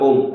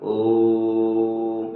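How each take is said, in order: First: The vowel is short and quickly clipped. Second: The vowel is drawn out for a long time. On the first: The speaker calls it wrong. "ऐसे नहीं बोल गया ओम, ऐसा नहीं" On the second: The speaker calls it right. "ऐसे करोगे तो आपको लंबा समय लगता है इसको बोलने में"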